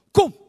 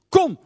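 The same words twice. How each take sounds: First: Said in the usual way. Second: Louder, beckoning come; louder come, Jesus calling the disciples. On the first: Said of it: "zegt hij tegen de jongens". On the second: Retold or imitated. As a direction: call them over, louder. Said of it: "zegt hij tegen de discipelen".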